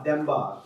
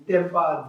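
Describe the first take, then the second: First: Second of the two Tibetan d sounds; second demba. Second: Demba said with a harder, tense d; first of the two Tibetan d sounds. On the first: Teacher models the contrasting demba for students. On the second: Teacher models the first demba for students. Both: Shown as a demonstration. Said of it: "how many of you can hear this difference".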